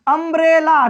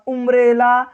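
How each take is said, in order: First: The word begins with a short 'uh' sound. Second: The word begins with an 'oo' sound. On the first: The speaker calls it right. "अ उच्चारण हो रहा है" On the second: The speaker calls it wrong. "उम्ब्रेला या उंडर मत पढ़िएगा"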